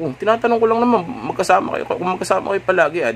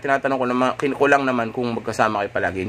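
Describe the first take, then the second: First: "tinatanong ko lang naman" pitched much higher and fast, sounding rattled; flustered asking. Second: Said in the usual way. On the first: Shown as a demonstration. Boyfriend backpedalling after her outburst, high and rushed. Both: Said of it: "hindi mo na kailangan sabihin yan".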